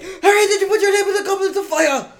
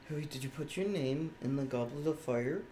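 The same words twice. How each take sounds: First: It is asked in a frantic, agitated voice. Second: It is asked in a calm, polite voice.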